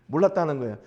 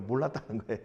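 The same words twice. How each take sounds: First: Quick, laughing 몰랐다는 거예요. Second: Said in the usual way. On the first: Real, not acted. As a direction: laugh it out fast. (몰랐다는 거예요를 웃으며 빠르게) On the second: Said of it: "repeats with a laugh".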